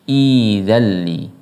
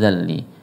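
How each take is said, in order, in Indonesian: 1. Kata ini dimulai baru dengan vokal i di awal. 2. Kata ini tersambung dari kata sebelumnya. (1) "ketika dipisah maka cara bacanya" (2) "Kalau disambung"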